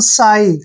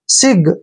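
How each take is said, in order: First: The word ends on a long vowel sound. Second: The word ends with a hard g sound. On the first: The speaker calls it right. "इसको पढ़ेंगे हम साई... जी का और एच का उच्चारण हम नहीं करते" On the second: The speaker calls it wrong. "एक जो बिगनर होगा... इसको पढ़ेगा वो सिग"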